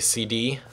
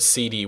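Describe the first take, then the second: First: The stress is on the second letter. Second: The stress is on the first letter. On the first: "most people say C D" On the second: "I say the word C D weird"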